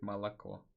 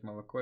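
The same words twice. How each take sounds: First: "молоко" with open Moscow a-sounds; Moscow accent. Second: Said in the usual way. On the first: Retold or imitated. Streamer quoting a Muscovite on milk, mock Moscow accent. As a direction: imitate a Muscovite saying "молоко". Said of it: "москвич говорит". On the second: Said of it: "просила мне сказать".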